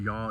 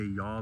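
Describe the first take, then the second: First: Said in the usual way. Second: "y'all" said softly with a drawn-out Southern rising tune; a soft, endearing Southern "y'all". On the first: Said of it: "the word". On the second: Shown as a demonstration. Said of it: "like that".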